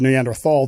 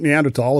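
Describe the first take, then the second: First: The last syllable begins with a 'th' sound. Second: The last syllable begins with a 't' sound. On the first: This is how someone else said it. "he actually said Neanderthal thinking" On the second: This is the speaker's own preferred way. "I prefer tall. ... I pronounce it Neanderthal"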